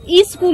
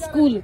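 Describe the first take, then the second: First: An extra vowel comes before the S sound. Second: The word starts directly with the S sound. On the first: The speaker calls it wrong. "ई स्कूल नहीं" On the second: The speaker calls it right. "स स स्कूल बोला"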